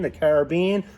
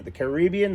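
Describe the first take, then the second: First: "Caribbean" as CARE-a-BEE-an, stress on BEE; the other way of saying it. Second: "Caribbean" as ca-RIB-bee-an, stress on RIB; one way of saying it. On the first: Giving viewers the other regional way to say "Caribbean", stress on BEE. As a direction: says "Caribbean" with a full first vowel and stress on BEE. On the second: Showing viewers one regional way to say "Caribbean", stress on RIB. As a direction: says "Caribbean" with stress on the second syllable, RIB. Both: Shown as a demonstration. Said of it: "it depends where you come from".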